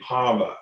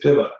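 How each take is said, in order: First: It is said slowly and elongated, Oklahoma style. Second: It is said shorter, Northern Cheyenne style.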